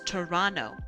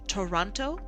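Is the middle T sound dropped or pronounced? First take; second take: dropped; pronounced. First: The middle T is dropped. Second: The middle T is clearly pronounced. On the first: It sounds like a local. The speaker calls it right. "not pronouncing the T" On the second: It marks the speaker as an outsider. The speaker calls it wrong. "instead of Toronto"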